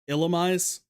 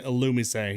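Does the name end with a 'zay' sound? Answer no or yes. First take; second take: no; yes. First: The name ends without a 'zay' sound. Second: The name ends with a 'zay' sound. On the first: This is a first guess at the name. "I don't know how I would have actually pronounced it to begin with. Probably would have been more like Illumise" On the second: This is the official way to say the name. "Only because I know the intended pronunciation"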